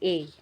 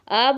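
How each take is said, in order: First: It is a full 'ay' sound. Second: It is a short weak 'uh' sound. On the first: The speaker calls it right. "ए बोलना चाहिए" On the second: The speaker calls it wrong. "अ बोलना ये गलत हो जाता है"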